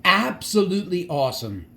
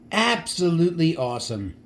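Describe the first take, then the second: No difference in how they are said.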